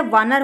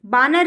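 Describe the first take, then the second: First: Said in the usual way. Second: बानर opening on b instead of v; wrong pronunciation. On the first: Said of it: "वानर होता है". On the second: Shown as a demonstration. Teacher shows the wrong word, starting with b. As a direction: start बानर with closed lips on b. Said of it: "बानर नहीं होता है".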